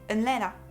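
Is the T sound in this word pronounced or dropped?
dropped. The T sound is dropped. "on ne prononce pas les T"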